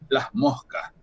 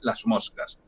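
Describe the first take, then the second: First: The s sound becomes a breathy h. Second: The s sound is fully pronounced as s. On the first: "esa S se aspira" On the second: "una S con otra articulación"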